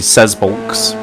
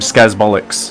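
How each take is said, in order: First: The name ends with a shorter 'bolks' sound. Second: The name ends with a longer 'bollocks' sound. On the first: The speaker calls it right. "when it's actually Sazbolks" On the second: The speaker calls it wrong. "I've been calling him Skazbollocks"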